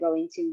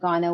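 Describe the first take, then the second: First: It is said as the full form going to. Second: It is said as the reduced form gonna. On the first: It is formal speech. The speaker calls it right. "the more formal way to say it" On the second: It is informal speech. The speaker calls it wrong. "instead of gonna"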